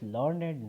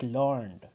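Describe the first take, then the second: First: The word is said with two syllables. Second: The word is said with one syllable. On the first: It is used as an adjective. "We are calling it as learned now" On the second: It is used as a verb. "when it comes to verb, we say it learned"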